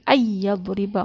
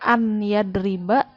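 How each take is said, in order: First: The n merges into a doubled y sound. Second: The n is heard separately before the y. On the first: "karena ada huruf idgham jadi ayyadriba masuk" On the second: "Harusnya an yadriba"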